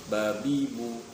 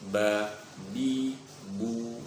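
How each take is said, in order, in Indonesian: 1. Suku katanya dibaca cepat dan menyambung. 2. Suku katanya dibaca pelan dan terpisah.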